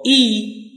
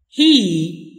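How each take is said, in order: First: It begins without any h sound. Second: It begins with a clear h sound. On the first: "for the weak" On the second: "for the strong"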